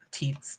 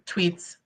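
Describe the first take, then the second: First: Teats said quietly, vowel like "eat" with no w; mock slip. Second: Said in the usual way. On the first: Shown as a demonstration. To viewers, joking about misreading tweets, deliberate slip. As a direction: drop the w in teats as a joke. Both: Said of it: "teats, tweets".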